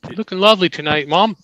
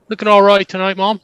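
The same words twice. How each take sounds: First: Put-on light English accent, a bit higher; a son's mock English compliment to his mom. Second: A touch more English, a little higher and louder; mock English compliment to mom; English accent. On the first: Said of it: "Compliment your mom in an English accent". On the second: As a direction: try the English accent again, broader. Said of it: "It was all right. It was subtle".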